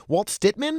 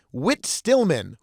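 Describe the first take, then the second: First: Walt Stitman dengan ragu, nada naik; wrong name. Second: Whit Stillman said slowly and carefully; careful correct name. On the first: Real, not acted. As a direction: say Walt Stitman as an unsure guess. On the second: Shown as a demonstration. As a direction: Whit Stillman, pelan, jelas. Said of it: "excuse me".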